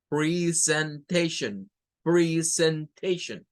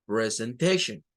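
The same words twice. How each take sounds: First: "Presentation" begun with pri, slowly; very slow "Presentation" with pri at the start; I sound. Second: "Presentation" begun with pre, at normal pace; "Presentation" with a plain pre start; E sound. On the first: Teacher shows students the I variant of "Presentation", slowly. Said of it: "con el I". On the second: Teacher contrasts the E variant of "Presentation" for students. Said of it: "con el E". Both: Shown as a demonstration.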